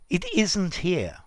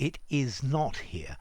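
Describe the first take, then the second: First: Is not is contracted to isn't. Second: Is not is said as two full words. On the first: "Here you're leaving something out" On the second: "as opposed to"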